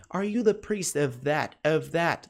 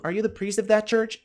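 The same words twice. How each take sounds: First: Slow, word-by-word "are you the priest of that"; pronúncia lenta. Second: Quicker, linked-up "are you the priest of that church"; pronúncia mais rápida. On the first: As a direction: take "Are you the priest of that" slowly for learners. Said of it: "frases pronunciadas mais lentas ali". ("Are you the priest of that" dito devagar) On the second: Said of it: "Daqui a pouco você tá falando". ("are you the priest of that church" dito de forma mais corrida) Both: Shown as a demonstration.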